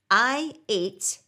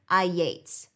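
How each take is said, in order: First: The words are said separately without a glide. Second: A Y glide links the two words.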